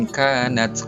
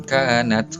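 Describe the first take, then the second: The two takes are said the same way.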